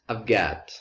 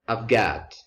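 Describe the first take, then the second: First: The word have is reduced to a v sound. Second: The same.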